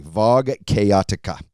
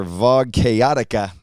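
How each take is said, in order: First: "Vog Chaotica" slow, Kay-otica again; own mispronunciation. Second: "Vog Chaotica" said slow as Vog Kay-otica; own mispronunciation. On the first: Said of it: "I can't pronounce it correctly". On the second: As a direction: slowly drawl "Vog Chaotica". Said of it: "That's not how you say it". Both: Shown as a demonstration.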